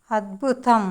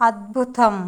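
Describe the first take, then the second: No difference in how they are said.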